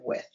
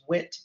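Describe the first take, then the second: First: The final sound is a voiceless TH. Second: The final sound is a T. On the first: "instead of with" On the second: "T for voiceless TH, wit instead of with"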